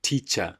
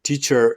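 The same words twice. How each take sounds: First: It is said with a British accent. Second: It is said with an American accent. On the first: "teacher is British" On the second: "Teacher is American"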